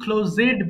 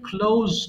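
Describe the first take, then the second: First: The ending is said as an extra syllable. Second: The ending is a bare consonant, no extra syllable. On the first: The speaker calls it wrong. "মাঝে মধ্যে আমরা কি বলে ফেলি? ক্লোজেড বলে ফেলি।" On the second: The speaker calls it right. "এটা কিন্তু উচ্চারণ হবে ক্লোজড।"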